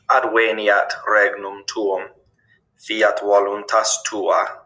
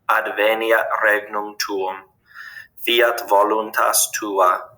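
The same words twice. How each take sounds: First: Each V is pronounced like an English W. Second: Each V is pronounced like an English V. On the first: This follows the classical pronunciation. "the letter V always makes a W sound" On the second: This follows the ecclesiastical pronunciation. "it always makes a V sound"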